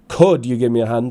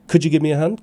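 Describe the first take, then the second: First: 'Could' is said fully, with a clear vowel. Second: 'Could' is reduced, with a weak short vowel. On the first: The speaker calls it wrong. "It's not" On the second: The speaker calls it right. "Notice the weak form"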